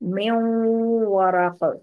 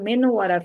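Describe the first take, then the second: First: The n merges nasally into the following w. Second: The n is pronounced clearly before the w. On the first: The speaker calls it right. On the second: The speaker calls it wrong.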